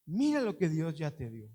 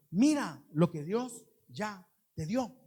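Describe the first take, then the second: First: Mira lo que Dios ya te dio, said lower with a falling close on mira; lower, settled repeat. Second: Mira lo que Dios ya te dio, drawn out slowly with a rising lift on mira; slow urging with mira stressed; slow emphatic exhortation. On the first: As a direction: bring it down and let it land. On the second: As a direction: press every word slowly on the congregation. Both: Shown as a demonstration. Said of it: "lo importante es esto".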